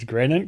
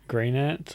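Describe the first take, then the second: First: The first vowel is a short 'e' sound. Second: The first vowel is a long 'ee' sound. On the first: The name is read as a single word. The speaker calls it wrong. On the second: The name is made of the words green and ant. The speaker calls it right.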